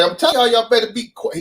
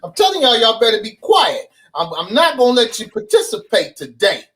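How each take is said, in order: First: A hint of a stern gym teacher, pitched up; half-voiced Judge Mathis-like teacher; Mister Oliver voice. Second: Mister Oliver impression. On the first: Gym teacher warning his class, lightly imitated. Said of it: "he sound just like Judge Mathis". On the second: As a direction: play the strict gym teacher threatening the class. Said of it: "This is his exact voice".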